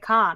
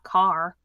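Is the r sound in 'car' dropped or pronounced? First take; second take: dropped; pronounced. First: It is said in a Massachusetts accent. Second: It is said without a Massachusetts accent. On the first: "in Massachusetts, people say car" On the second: "not car"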